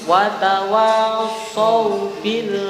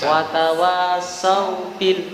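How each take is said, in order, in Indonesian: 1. Bunyi s-nya tebal, dengan vokal o yang gelap. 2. Bunyi s-nya tipis, dengan vokal a yang terang. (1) "saw pakai so, bukan sa" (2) "kepleset kali anu huruf sin biasanya"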